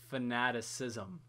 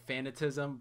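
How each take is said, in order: First: The word is said with the 'ci' syllable. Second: The word is said without the 'ci' syllable. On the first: The speaker calls it right. "but it's fanaticism" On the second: The speaker calls it wrong. "I love when people say that wrong. They like say fanatism"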